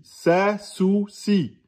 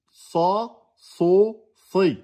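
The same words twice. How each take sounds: First: Sa, sou, si light and thin, higher; thinned vowels. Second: Sa, so, si heavy and dark, higher; emphatic vowels. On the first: Teacher contrasting sin with sad, thinned vowels. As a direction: keep "Sa, sou, si" front and thin. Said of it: "les trois voyelles amincies". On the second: Teacher contrasting sad with sin, emphatic vowels. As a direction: fill the mouth on "Sa, so, si". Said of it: "les trois voyelles emphatiques". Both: Shown as a demonstration.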